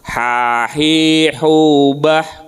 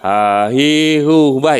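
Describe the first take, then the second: First: The h is rough and from the throat. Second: The h is a plain light breath. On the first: The speaker calls it right. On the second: The speaker calls it wrong.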